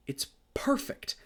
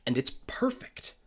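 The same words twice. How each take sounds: First: Whispered, almost to himself; breathy whisper. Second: Said in the usual way. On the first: Real, not acted. Repeating his praise of the film in an awed whisper. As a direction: let it out as a reverent whisper.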